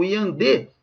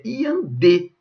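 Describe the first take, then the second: First: Said in the usual way. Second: Slow "iandê" with DÊ picked out; final-syllable stress. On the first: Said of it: "o acento se justifica". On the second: Shown as a demonstration. Teacher correcting the stress claim, "iandê" slowly stressed on final DÊ. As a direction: draw out "iandê", landing firmly on the last syllable DÊ. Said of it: "Sílaba tônica é a última".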